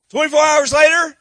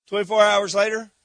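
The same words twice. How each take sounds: First: "Twenty-four hours later" said louder and higher, like a comic punchline; louder, emphatic narration. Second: Said in the usual way. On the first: Shown as a demonstration.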